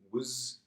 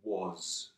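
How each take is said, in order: First: The word has a weak, reduced vowel. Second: The word has a full, clear vowel. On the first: "the soft pronunciation" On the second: "the strong pronunciation"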